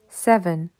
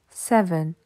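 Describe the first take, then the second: The two takes are said the same way.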